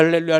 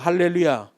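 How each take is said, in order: First: The word is said quickly, running into babble. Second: The word is said at a normal, unhurried pace.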